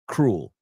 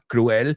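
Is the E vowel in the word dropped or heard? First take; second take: dropped; heard. First: The E vowel is left out. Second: The E vowel is clearly sounded. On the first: The speaker calls it right. "Just imagine the word without the E" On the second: The speaker calls it wrong. "Not cruel"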